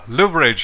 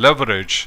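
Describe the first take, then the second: First: The word is said with a British pronunciation. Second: The word is said with an American pronunciation. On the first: "in U K English" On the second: "in U S English"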